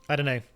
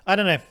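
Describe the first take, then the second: First: Said in the usual way. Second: Loud, higher "I don't know"; louder exclamation. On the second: Real, not acted.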